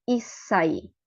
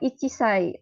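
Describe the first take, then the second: First: A doubled s sound replaces the 'chi' syllable. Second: A full 'chi' syllable comes before 'sai'. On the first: The speaker calls it right. "tapi issai gitu ya" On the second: The speaker calls it wrong. "Jadi bukan ichisai"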